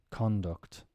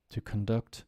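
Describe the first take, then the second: First: Conduct as CON-duct; full vowel on CON, falling away in Conduct; noun stress. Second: Conduct as con-DUCT; weak first vowel in conduct, weight on DUCT; verb stress. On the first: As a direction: stress the first syllable of Conduct. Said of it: "think of it now as nouns". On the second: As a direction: stress the second syllable of conduct. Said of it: "Let's do it as verbs". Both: Shown as a demonstration.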